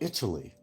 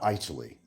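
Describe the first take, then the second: First: The word is said the standard way. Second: The word is said the Midwestern way. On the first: The speaker calls it right. "They come from they come from Italy" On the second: The speaker calls it wrong. "not Italy"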